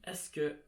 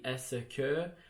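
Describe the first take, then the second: First: The phrase is said in a shortened form. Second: The phrase is said in full. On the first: "it would just be est-ce que" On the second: "if you're going to say est-ce que"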